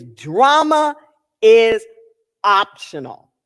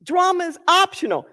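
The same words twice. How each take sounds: First: Drama, pause, "is" punched, pause, optional; weighted quote. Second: "optional" carries the stress, said lightly and quickly. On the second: Repeating the line to listeners, stressing optional. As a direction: toss it off, landing on "optional". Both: Shown as a demonstration. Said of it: "One of my favorite lines".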